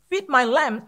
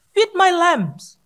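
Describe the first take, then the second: First: Said in the usual way. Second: Feed my lambs drawn out very slowly, louder; slow emphatic. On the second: Shown as a demonstration. Preacher slowly stressing Jesus' words to the church. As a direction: lay each word down slowly.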